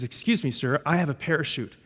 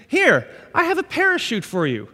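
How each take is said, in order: First: Much softer and lower; hushed stewardess. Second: Lightly voiced chirpy stewardess. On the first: Retold or imitated. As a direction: lean in, confide it quietly. Stewardess voiced quietly, second version. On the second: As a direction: play the eager flight attendant, a touch higher. Stewardess voiced in sermon story.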